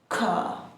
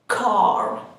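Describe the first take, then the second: First: The final r sound is dropped. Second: The final r sound is pronounced.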